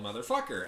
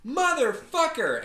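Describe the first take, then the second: First: Said in the usual way. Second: High, drawn-out, louder yell; retold yell. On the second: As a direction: yell it out high and slow, imitating her. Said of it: "the same gal that yelled".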